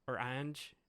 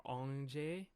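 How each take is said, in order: First: "Ange" said like English "anj", one syllable; English pronunciation. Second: "Ange?" said the French way, nasal "ahnzh-ay"; French pronunciation. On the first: Trying out the assistant's name, English "Ange" as anj. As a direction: try "Ange" rhyming with flange, hard j. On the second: Trying out the assistant's name, French "Ange" as ahnzh-ay. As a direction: try "Ange?" as "ahnzh-ay", soft zh and final ay. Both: Shown as a demonstration. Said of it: "I believe that's how it's pronounced".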